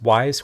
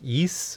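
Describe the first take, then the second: First: The name sounds like the word 'wise'. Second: The name sounds like 'yis', starting with a y. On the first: "I've pronounced this Wise Chronicles" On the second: "someone corrects me on Twitter and says like Yis"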